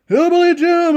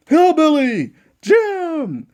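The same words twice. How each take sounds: First: Said in the usual way. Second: Ring announcer call. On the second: Pretend. Ring announcer introduces Hillbilly Jim, slow drawn-out call. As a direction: stretch out "Hillbilly Jim" slowly, announcer style.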